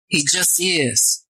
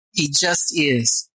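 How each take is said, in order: First: Slow emphatic affirmation. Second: Slow quieter repeat. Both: Real, not acted.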